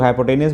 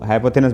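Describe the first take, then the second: First: हाइपोटेन्यूज said with a hard T, not TH; हाइपोटेन्यूज as hy-po-TEN-yooz; alternative pronunciation. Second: हाइपोथेनस said with TH in place of T; हाइपोथेनस as hy-po-THE-nus; foreign-book pronunciation. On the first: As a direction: end हाइपोटेन्यूज on a -nyooz sound. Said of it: "कुछ लोग हाइपोटेन्यूज बोलते हैं". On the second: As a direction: end हाइपोथेनस on a short -nus. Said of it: "foreign language जो pronunciation है". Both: Shown as a demonstration.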